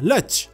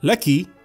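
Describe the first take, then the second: First: The final consonant is a ch sound. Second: The final consonant is a plain k sound. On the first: "تتحول إلى لتش" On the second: "كاف مكسورة كي"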